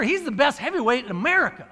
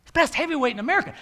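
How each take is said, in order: First: Said in the usual way. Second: Fast, rising repeat of the line ending on "America"; marveling repeat. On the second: Shown as a demonstration. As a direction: say "He's the best heavyweight in America" quickly, with the pitch rising on "America".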